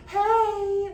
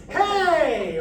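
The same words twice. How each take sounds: First: High, lighter held call; too-heady call; floating head voice. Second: High, loud mixed call; strong chesty mixed call; powerful calling voice. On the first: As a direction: float it in head voice with less power. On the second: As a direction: call it with more power than head voice. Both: Shown as a demonstration. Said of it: "there's more power than the head voice".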